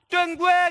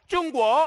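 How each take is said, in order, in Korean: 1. 'tting-gyu' 소리로 발음해요. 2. 'zhong-guo' 소리로 발음해요. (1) "육백 년 전에 어떻게 했냐? 띵규 이렇게 했단 말이에요" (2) "지금 중국 사람들이 이걸 어떻게 하면 중국 이렇게 이야기하고 있어요"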